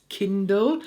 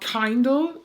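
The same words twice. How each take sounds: First: The first vowel is a short 'i'. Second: The first vowel sounds like in 'kind'. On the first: The speaker calls it right. "it's Kindle. Like the Amazon" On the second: The speaker calls it wrong. "not Kindle, not from kind"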